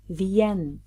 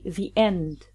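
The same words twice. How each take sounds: First: The words are linked with a y glide. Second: The two words are said separately, unlinked. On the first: The speaker calls it right. "We say the end" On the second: The speaker calls it wrong. "We don't say the end"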